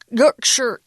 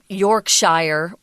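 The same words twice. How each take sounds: First: It is pronounced the way English locals say it. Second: It is pronounced the way the speaker once said it. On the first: The speaker calls it right. "how they pronounce it over there" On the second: The speaker calls it wrong. "not Yorkshire, which I said when I was growing up"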